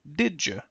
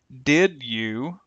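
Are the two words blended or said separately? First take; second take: blended; separate. First: The D and Y merge into a j. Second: The D and Y stay separate sounds.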